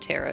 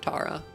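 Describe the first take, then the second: First: The first vowel sounds like 'air'. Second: The first vowel sounds like 'ah'. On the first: The speaker calls it right. "if it's pronounced Terra" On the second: The speaker calls it wrong. "instead of Tara"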